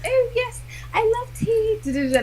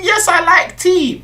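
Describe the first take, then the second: First: Put-on high-pitched posh English accent; mock-posh, far up in pitch. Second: High, mimicking posh English accent; mock someone's put-on posh voice; exaggerated posh accent, pitched right up. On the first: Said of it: "I put on my little posh accent". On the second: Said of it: "About your posh accent".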